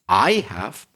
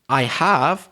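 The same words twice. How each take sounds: First: The stress falls on the word I. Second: The stress falls on the word have. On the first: My experience differs from the other person's. "I can stress the word I" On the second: The other person hasn't, but I have. "I stress the word have"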